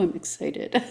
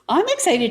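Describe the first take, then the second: First: It is said in a cool, understated way. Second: It is said with lively, dramatic enthusiasm. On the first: The speaker keeps the excitement low-key. "You're much more cool than I am" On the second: The speaker is openly thrilled. "I sound excited. I get enthused. I get like um, very dramatic"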